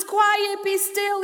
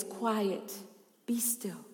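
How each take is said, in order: First: High, raised preacher's voice; proclaimed command. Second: Hushed command. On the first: Preacher quoting Jesus who calms storms, proclaimed command. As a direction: ring it out as a proclamation. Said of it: "He's the one who says". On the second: Jesus speaking to the waves, hushed command. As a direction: still the waves with a hush. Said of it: "he says to the waves". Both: Acted.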